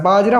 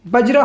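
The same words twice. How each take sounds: First: बाजरा with a long "aa" after ब; long first vowel. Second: बजरा with a short "a" after ब; short first vowel. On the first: Teacher showing how the usual word goes, long-vowel बाजरा. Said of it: "यहाँ पर आ की मात्रा है नहीं". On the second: Teacher reading the word as written without the matra, short-vowel बजरा. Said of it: "बाजरा होता है जबकि". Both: Shown as a demonstration.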